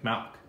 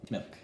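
First: The vowel is an odd one, not short i. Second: The vowel is the usual short i sound. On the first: The speaker calls it wrong. "you're saying it wrong. You're saying it like Malk" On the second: The speaker calls it right. "Like M-I-L-K. Milk"

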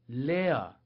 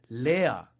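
The two takes are said the same way.

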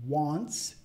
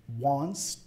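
Both takes have the same delivery.

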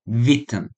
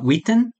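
First: The word begins with a V sound. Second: The word begins with a W sound. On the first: The speaker calls it right. "So W is pronounced as a V" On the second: The speaker calls it wrong. "they're not Witten in German"

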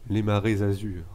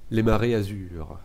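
First: Marées and azur are joined by a linking z. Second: Marées and azur are said without a linking z.

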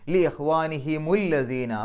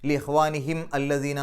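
First: A linking 'mu' joins the two words. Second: A glottal break starts the second word. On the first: The speaker calls it right. "ഹുമു എന്നാണ് ആക്കി മാറ്റുക" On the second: The speaker calls it wrong. "ആ ഹംസത്ത് വസലൊക്കെ ഉച്ചരിക്കേണ്ടി വരും"

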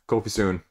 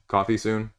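First: The first word sounds like the name Kofi. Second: The first word sounds like the drink coffee. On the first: The speaker calls it wrong. "I always want to say Kofi" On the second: The speaker calls it right. "it's coffee"

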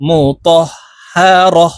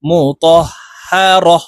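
First: The word ends with a short 'a' sound. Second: The word ends with a short 'a' sound.

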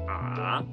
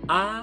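First: The pitch dips low into a deep voice. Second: The pitch stays high and level throughout.

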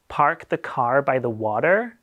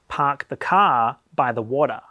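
First: The R sounds after vowels are pronounced. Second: The R sounds after vowels are dropped. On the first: "you curl your tongue to pronounce it. Sort of like this" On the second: "Australian and most British and Kiwi accents are non-rhotic"

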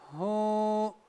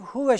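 First: It ends with a lengthened 'u' vowel. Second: It ends with a short 'e' vowel. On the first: The reading stops at this word. "bir elif miktarı uzatmamız gerekiyor burada" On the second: The reading continues without stopping. "Normalde geçmiş olsaydık huve şeklinde okuyacaktık"

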